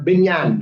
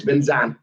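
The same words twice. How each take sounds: First: Binyan with a y sound in the middle; local pronunciation. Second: Binzan with a z sound in the middle; Hanoi pronunciation. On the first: Host showing how we pronounce it, Binyan with a y. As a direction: say Binyan, second syllable starting like "yan". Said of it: "is how we would pronounce it". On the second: Host showing how Hanoi says it, Binzan with a z. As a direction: say Binzan, second syllable starting like "zan". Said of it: "In, in Hanoi". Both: Shown as a demonstration.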